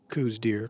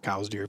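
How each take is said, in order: First: The first syllable sounds like 'coo'. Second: The first syllable sounds like 'cow'. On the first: The speaker calls it wrong. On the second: The speaker calls it right.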